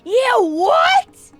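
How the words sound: It is said in a SpongeBob impression voice.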